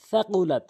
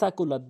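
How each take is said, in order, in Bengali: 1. প্রথম ব্যঞ্জনধ্বনিটি th ধ্বনি। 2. প্রথম ব্যঞ্জনধ্বনিটি সাধারণ s ধ্বনি। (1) "সাটা জিব্বার আগা দাঁতের আগা" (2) "কখনোই সাকুলাত বলবেন না"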